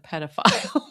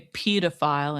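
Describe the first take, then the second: First: The first vowel is said the non-British way. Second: The first vowel is said the British way. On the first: "instead of pedophile" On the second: "they say pedophile"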